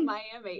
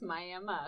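First: It is pronounced the usual non-local way. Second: It is pronounced the local Oklahoma way. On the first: The speaker calls it wrong. "It's not Miami" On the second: The speaker calls it right. "It's Miami if you live in Oklahoma"

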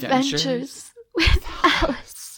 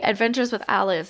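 First: It is said in a very sad tone. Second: It is said in a plain, neutral tone.

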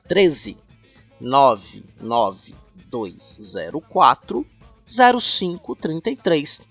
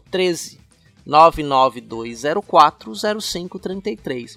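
First: The number is said slowly and calmly. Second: The number is said at a quicker pace.

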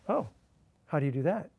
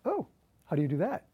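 First: It sounds puzzled and confused. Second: It sounds curious and interested.

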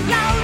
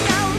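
The two takes are said the same way.

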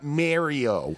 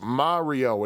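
First: The first vowel is an 'air' sound, like Mary. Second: The first vowel is an open 'ah' sound. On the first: The speaker calls it wrong. "It is not Mario" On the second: The speaker calls it right. "that is an Italian name. It is pronounced Mario"

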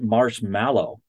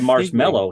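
First: It is said the British way, matching spelling. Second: It is said the American way. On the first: "In the UK, they pronounce it Marshmallow, which is how it's spelled" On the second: "but we say Marshmallow"

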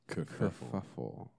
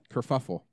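First: The word is said slowly and drawn out. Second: The word is said at a normal speed.

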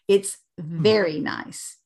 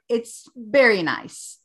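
First: The word very starts with a V sound. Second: The word very starts with a B sound. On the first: The speaker calls it right. "our V is underneath our teeth. V" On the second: The speaker calls it wrong. "They do not have the muscle coordination and control to say very nice"

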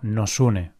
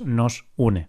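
First: The two words run together quickly as one. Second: The two words are said clearly apart. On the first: It sounds like one complete verb. "al pronunciarlo muy rápido, pues puedes pensar que es un verbo completo" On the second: It is a pronoun followed by a verb. "pero es nos une"

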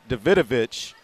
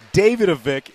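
First: The name has a Slavic-style pronunciation. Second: The name has an Americanized pronunciation. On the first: "like Lolita Davidovich, the actress" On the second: "that's how she pronounced it. ... a very Americanized pronunciation"

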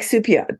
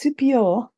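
First: The name is read as its English spelling suggests. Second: The name is said with an attempted French accent. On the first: This is how the name looks on paper. "It's spelled like Supiot" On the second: This is how the name is actually said. "but it's Supiot. No, that's the worst French accent in the world"

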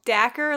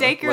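First: The name rhymes with knacker, with a short vowel. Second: The name rhymes with acre, with a long vowel. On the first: "like the word knacker" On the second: "like the word acre"

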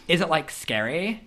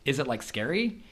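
First: It is said in an imitated, put-on voice. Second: It is said in the speaker's ordinary voice.

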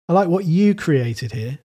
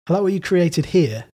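First: The stress is on "created". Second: The stress is on "here".

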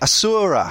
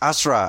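First: The middle syllable is not reduced to a link. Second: The first and last syllables carry the stress. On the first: This is the anglicised way of saying the name. The speaker calls it wrong. "a lot of people in English, and I do this without thinking about it all the time, say" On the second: This is how the name is said in the game. The speaker calls it right. "the stress is really on the first and last syllables, and the U is a linking syllable"

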